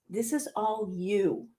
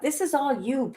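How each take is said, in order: First: Slow and softer, leaning on is; slow pointed repeat. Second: Said in the usual way. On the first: Real, not acted. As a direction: drive it home quietly, word by word.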